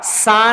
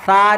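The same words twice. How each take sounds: First: The consonant is a plain hissing 's' sound. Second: The consonant is a soft 'th' with tongue between teeth. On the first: The speaker calls it wrong. "सा नहीं, सा और सीन दोनों एक हो जाएगा" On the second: The speaker calls it right. "जुबान की नोक, सनाया औलिया का किनारा, सा निकलता है"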